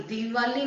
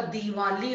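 First: दिवाली with a long "dee" at the start; wrong vowel length. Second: Said in the usual way. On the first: Shown as a demonstration. Teacher correcting a misspelling, दिवाली opening on long "dee". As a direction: stretch the first vowel of दिवाली. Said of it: "नहीं होता". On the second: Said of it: "होता है".

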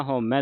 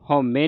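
First: ਹਉਮੈ ending in an open "mai"; correct pronunciation demo. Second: ਹਉਮੈ ending in a closed "me"; wrong pronunciation demo. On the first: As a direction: widen the last vowel of ਹਉਮੈ to ai. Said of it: "ਹਉਮੈ ਦਲਾਵਾਂ ਦੇ ਨਾਲ". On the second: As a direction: end ਹਉਮੈ on a narrow e, "haume". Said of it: "ਹਉਮੈ ਨਹੀਂ ਪੜ੍ਹ ਦੇਣਾ". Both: Shown as a demonstration.

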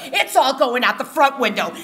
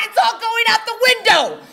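First: A controlled mother's ultimatum; calm threat. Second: Fed-up mom screaming the threat; shouted threat. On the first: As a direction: state the threat coolly, no raised voice. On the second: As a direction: bellow it as the last straw. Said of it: "my mother screamed". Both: Retold or imitated.

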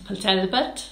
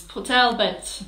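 First: A playful stab at a Welsh accent on Port Talbot; a hint of a Welsh accent, lightly done. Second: Said in the usual way. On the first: Shown as a demonstration. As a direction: say Port Talbot with a lilting Welsh rise at the end. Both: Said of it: "It's my Welsh, innit?".

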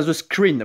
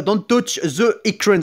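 First: "screen" re-said lower in French-accented English. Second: Slow, halting English with a French accent. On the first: Gamer correcting his slip on "screen", lower French-accented English. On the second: Gamer reading the game's warning aloud, halting French-accented English. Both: Shown as a demonstration. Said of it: "j'ai un accent anglais".

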